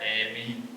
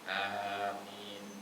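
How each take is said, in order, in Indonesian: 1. Vokal pertama condong ke bunyi e. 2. Vokal pertama adalah a yang biasa, lebih panjang. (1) "ada yang imalah" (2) "yang biasa dibaca sama orang umumnya"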